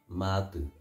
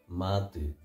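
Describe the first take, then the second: No difference in how they are said.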